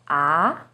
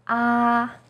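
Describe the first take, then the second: First: The pitch starts lower and goes up. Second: The pitch stays high and steady. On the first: "starts with a little lower pitch and goes up" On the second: "First tone, yi sheng, is high and steady"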